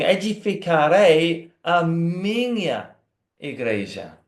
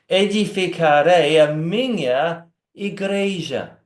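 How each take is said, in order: First: The emphasis falls on the word minha. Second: The emphasis falls on the word igreja. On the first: The church belongs to him. "Pode ler assim" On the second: It is the church, the people of God, that he builds. "pode colocar ênfase na última parte"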